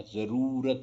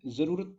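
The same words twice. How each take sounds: First: जरूरत with a long oo in रू; long vowel. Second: जरूरत with a short u in रू; higher जरूरत with clipped रू; short vowel. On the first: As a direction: stretch the रू of जरूरत. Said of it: "ये बड़ा आना चाहिए". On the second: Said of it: "ऊ की मात्रा छोटी लग रही". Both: Shown as a demonstration.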